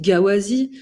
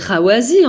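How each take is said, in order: First: The word begins with a hard G sound. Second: The word begins with a throaty R sound. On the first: The speaker calls it wrong. "mais pourquoi vous dites Gawazi?" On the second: The speaker calls it right. "C'est Rawazi en fait. J'ai dit le rat"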